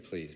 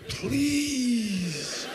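First: It is said casually, without feeling. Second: It is said as a desperate plea.

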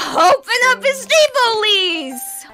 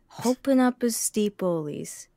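First: It is said angrily, like busting through a door. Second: It is said calmly, without anger.

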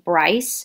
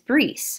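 First: The vowel sounds like 'eye'. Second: The vowel sounds like 'ee'. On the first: This is the anglicized form of the name. "My first name" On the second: This is the original French form of the name. "the actual pronunciation of this maiden name"

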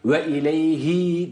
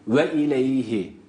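First: The final vowel is drawn out long. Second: The final vowel is kept short. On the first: The speaker calls it wrong. "değil" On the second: The speaker calls it right. "Zamir burada uzatılmaz"

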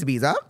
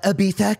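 First: The middle consonant is said as a 'z' sound. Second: The middle consonant is said as a 'th' sound. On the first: The speaker calls it right. "It's Ibiza. There's a Z" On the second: The speaker calls it wrong. "a try-hard little bitch who's going to say"

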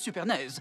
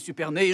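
First: The name ends in a z sound. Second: The name ends in a plain vowel sound. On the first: The speaker calls it right. "je veux dire Supernaise" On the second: The speaker calls it wrong. "monsieur Supernay, je veux dire Supernaise"

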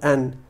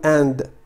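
First: The final d sound is dropped. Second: The final d sound is pronounced. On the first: The speaker calls it right. "فالدي لا تنطق" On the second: The speaker calls it wrong. "لا نقول and"

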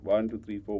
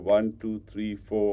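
First: The counting is at the fastest pace. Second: The counting is at a slow pace.

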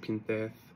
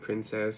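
First: The word is said with a lisped 'th' sound. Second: The word is said with a clear 's' sound. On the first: "She was so cute with that lisp" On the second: "I call her princess"

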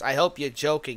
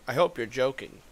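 First: It is said in a put-on character voice. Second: It is said in his normal voice.

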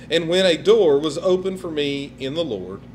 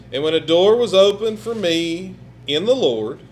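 No difference in how they are said.

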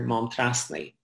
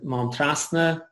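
First: The final vowel is an 'e' sound. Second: The final vowel is an 'a' sound. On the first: This is the Mayo form. "in Mayo and in the Thuaidhigh, you hear Montrasni" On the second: This is the South Connemara form. "which is what people would say sort of in South Connemara"

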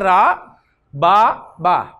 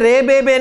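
First: The letter names end in an 'a' vowel. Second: The letter names end in an 'e' vowel. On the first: The speaker calls it right. "रे बे बे से निकल के रा बा बा" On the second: The speaker calls it wrong. "आपने इसे रे बे बे नहीं कहना"

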